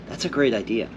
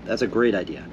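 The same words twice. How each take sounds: The two takes are said the same way.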